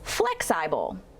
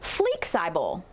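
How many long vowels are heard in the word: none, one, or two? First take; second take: one; two. First: Short first vowel, long second vowel: flex-eye-bull. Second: Both first vowels are long: flee-eye-bull. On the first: "making a short sound in our first syllable" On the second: "Both vowels will be long when we blend the word"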